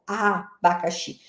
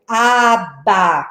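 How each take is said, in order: First: ABACAXI as a lone A, a pause, then bacaxi run together softly; first syllable set apart. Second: ABACAXI stretched into four separate syllables, a-ba-ca-xi. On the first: Teacher showing the first sound to the class, first syllable set apart. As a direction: split off the first A of abacaxi, then join the rest. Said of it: "Eu comecei uma aliteração". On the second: Teacher showing how to work syllables with children, syllable by syllable. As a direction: say abacaxi slowly, a beat on each syllable. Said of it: "quando eu trabalho segmentação". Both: Shown as a demonstration.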